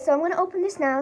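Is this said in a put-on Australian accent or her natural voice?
natural. It is spoken in her own natural accent. "just talk normal"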